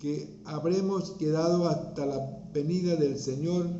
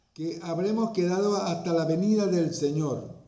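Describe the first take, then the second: No difference in how they are said.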